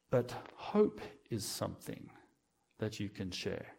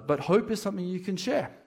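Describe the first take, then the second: First: Slow, hushed and softer; soft, slow statement of hope; quiet refrain. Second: Higher and brighter, pushed with conviction; higher, stronger restatement of hope; emphatic refrain. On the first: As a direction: let the line sink in gently. Sermon refrain, first take. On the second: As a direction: lift the line like a rallying call. Sermon refrain, repeated stronger. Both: Acted.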